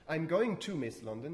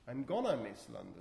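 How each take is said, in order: First: 'Going to' is said in full, as two words. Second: 'Going to' is reduced to one fused word.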